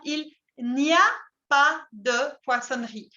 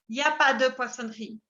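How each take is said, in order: First: The opening words are said in full. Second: The opening "il" and "n'" are dropped. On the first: This is careful or written-style speech. "on dit il n'y a pas de" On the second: This is casual talk between fluent speakers. "Tengo tendencia a omitir el il y el n apóstrofe"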